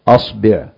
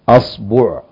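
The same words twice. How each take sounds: First: The vowel after the b is i. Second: The vowel after the b is u. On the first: "الفتح والضم والكسر" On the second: "الفتح والضم والكسر"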